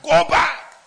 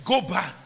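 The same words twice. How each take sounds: First: "go back" flung out high and loud; shouted command. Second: Said in the usual way. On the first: Acted. Preacher voicing heaven sending the unready back, high shout. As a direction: bark the order out.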